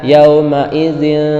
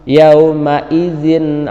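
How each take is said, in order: First: The n sound is hidden and nasalized. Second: The n sound is pronounced clearly. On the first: The speaker calls it wrong. "jangan sampai dibaca yauma izin, nah, bukan hikfalah" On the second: The speaker calls it right. "izhar halki harus jelas"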